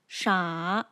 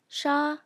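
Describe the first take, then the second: First: The pitch falls and then rises. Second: The pitch stays level throughout. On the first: "falls and then rises" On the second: "maintains its pitch from start to finish"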